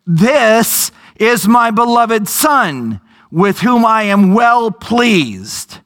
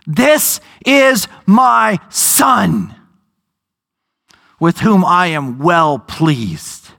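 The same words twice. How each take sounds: First: Slow, measured divine pronouncement; preacher voicing God from the cloud, slow and solemn. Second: Very slow, weighty pronouncement with long pauses; God speaking. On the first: Preacher gives God's voice from the cloud, slowly. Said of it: "a voice from the cloud said". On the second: Acted. Preacher re-voices God interrupting Peter, very slow. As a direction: drag each word out like a voice from heaven. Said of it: "God starts to speak over top of him".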